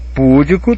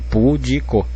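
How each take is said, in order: First: The stress is on the first syllable. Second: The stress is on the second syllable. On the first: The speaker calls it wrong. "Púdico teria que ser assim, porque aí teria proparoxítona" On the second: The speaker calls it right. "se não vem com acento, eu leio pudico"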